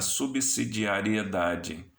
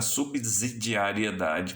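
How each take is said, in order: First: The s after 'sub' sounds like an s. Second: The s after 'sub' sounds like a z. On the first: The speaker calls it right. "quando é da subsidiariedade" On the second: The speaker calls it wrong. "as pessoas pronunciam errado do ponto de vista da fonética"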